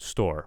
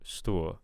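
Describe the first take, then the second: First: The final r sound is fully pronounced. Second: The final r sound is dropped. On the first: The speaker calls it right. "store we want ra ra" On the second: The speaker calls it wrong. "I'm kind of hearing stu"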